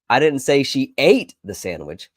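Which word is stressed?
ate. The word "ate" carries the main stress. She did something else with it. "She may have packed it and stored it away for later"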